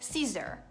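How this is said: The final R sound is strong and marked. "una pronuncia un pochino più americana, allora in questo caso rimarcate la R un pochino di più"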